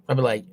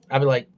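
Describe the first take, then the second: No difference in how they are said.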